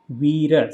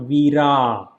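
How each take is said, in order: First: The word ends on the consonant sound. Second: The word ends with a final vowel sound. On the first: The speaker calls it right. "Veer, single A" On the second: The speaker calls it wrong. "not Veera"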